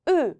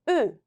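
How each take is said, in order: The two takes are said the same way.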